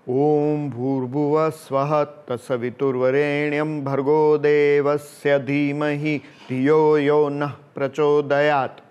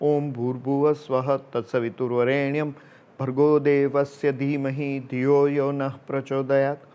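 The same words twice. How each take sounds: First: It is said out loud, clearly audible. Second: It is murmured softly, barely audible. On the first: "उसमें हम allowed बोलेंगे" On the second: "तो आपको सिर्फ ध्वनि सुनाई देगी कुछ स्वरों की"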